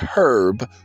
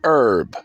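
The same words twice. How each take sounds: First: The word starts with an audible H sound. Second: The word starts without an H sound. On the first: The speaker calls it wrong. "not herb" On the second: The speaker calls it right. "it's herb, ... The H is silent"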